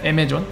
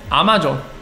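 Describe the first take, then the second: First: The first vowel is between 'ah' and 'eh'. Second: The first vowel is an open 'ah' sound.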